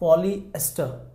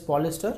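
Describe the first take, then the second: First: The word is split into poly and ester. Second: The word is said quickly, run together. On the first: "if you split specifically, if you try to pronounce this term" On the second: "Usually randomly we call it as polyester"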